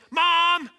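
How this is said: The call is a loud, frantic yell. The water has been overflowing for ten minutes. "And if the child yells"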